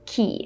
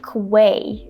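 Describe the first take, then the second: First: It is pronounced like key. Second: It is pronounced like kway. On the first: The speaker calls it right. "But the correct pronunciation is key" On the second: The speaker calls it wrong. "how many people say quay instead of key"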